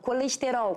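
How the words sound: Vowels are full, with the mouth wide open. "Eu falo colesterol, com a boca toda aberta"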